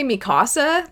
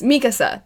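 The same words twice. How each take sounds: First: "Mikasa" said like Spanish mi casa, stressed KA; mispronounced Mikasa. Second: "Mikasa" as the show says it, stressed MEE; corrected Mikasa. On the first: Admitting the habitual slip, Mikasa said as mi casa. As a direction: say "Mikasa" as mee-KAH-sah. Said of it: "I always wanna say". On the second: Giving the show's version, Mikasa stressed on the first syllable. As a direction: say "Mikasa" as MEE-kuh-suh. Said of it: "That's how they say it". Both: Shown as a demonstration.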